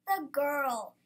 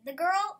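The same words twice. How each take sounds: First: Put-on "The girl." falling to a full stop; firm answer. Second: Put-on "The girl?" with GIRL rising into a question. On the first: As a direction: state "The girl." emphatically with a drawn-out fall. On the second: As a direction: ask "The girl?" loudly, lifting the end. Asks which Lily is meant. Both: A narrator's reading.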